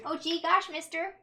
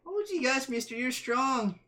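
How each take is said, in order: First: Put-on wholesome 1950s kid. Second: Put-on wide-eyed 1950s kid voice; wholesome 1950s kid. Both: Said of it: "you appreciated the reference".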